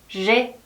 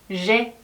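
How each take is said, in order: The two takes are said the same way.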